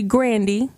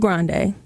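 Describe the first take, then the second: First: The name ends with an 'ee' sound. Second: The name ends with an 'ay' sound. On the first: The speaker calls it right. "it's actually Grandy" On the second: The speaker calls it wrong. "instead of Grande"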